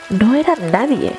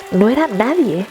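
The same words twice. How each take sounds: The two takes are said the same way.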